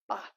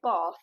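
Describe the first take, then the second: First: Bath has a short, flat 'a' vowel. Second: Bath has a long, posh 'ah' vowel.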